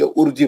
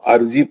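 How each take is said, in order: First: The word begins with a 'u' vowel. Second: The word begins with an 'a' vowel. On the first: "पेश" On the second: "जबर"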